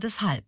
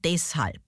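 First: The stress is on the second syllable. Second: The stress is on the first syllable. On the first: The speaker calls it right. "Und das heißt aber" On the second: The speaker calls it wrong. "Wie viele sagen"

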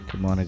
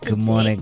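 First: It is said sleepily, with low energy. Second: It is said brightly, with more energy.

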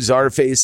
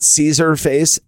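First: The name begins with the sound 'czar'. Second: The name begins with the sound 'caesar'. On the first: The speaker calls it right. "Czar is a Russian word. It's czar" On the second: The speaker calls it wrong. "It's not Caesar face"

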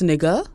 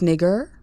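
First: The ending is soft, without an R sound. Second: The ending has a hard R sound. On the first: The speaker considers it acceptable in-group usage. The speaker calls it right. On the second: The speaker considers it unacceptable usage. The speaker calls it wrong. "with the hard ER"

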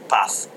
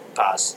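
First: The word ends with a th sound. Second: The word ends with an s sound.

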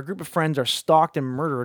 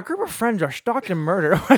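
First: It is read in the speaker's ordinary accent. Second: It is read in a put-on Irish accent.

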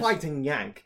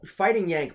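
First: It is said in a Cockney British accent. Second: It is said in the speaker's normal accent.

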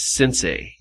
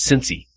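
First: The word is said with an English-speaking pronunciation. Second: The word is said with a Japanese pronunciation. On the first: This is how the speakers' own community says it. "we pronounce it as Sensei" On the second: This is how native speakers say it. "listening to them pronounce it, it's Sensei"

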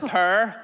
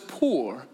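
First: The vowel is an 'er' sound, like purr. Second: The vowel is a rounded 'oor' sound. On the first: This is how the speaker's own community says it. "But for us, it's purr" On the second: This is how most listeners say it. "most of you will pronounce it as poor"

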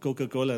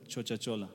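First: It is said with k sounds. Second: It is said in a dialect with ch sounds.

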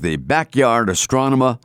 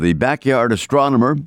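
First: It is said in a Boston accent. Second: It is said in a neutral accent.

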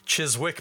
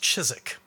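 First: The W sound in the middle is pronounced. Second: The W sound in the middle is silent. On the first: The speaker calls it wrong. "it's not Chiswick" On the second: The speaker calls it right. "it's Chiswick"

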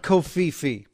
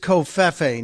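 First: The ending is pronounced with a long 'ee' sound. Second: The ending is pronounced with a short 'e' sound. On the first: The speaker calls it wrong. "If it was Covfefe, it would be F-I-F-I, not F-E-F-E" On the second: The speaker calls it right. "it's Covfefe"

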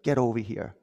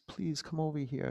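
First: It is said in a harsh, demanding tone. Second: It is said in a gentle, inviting tone.

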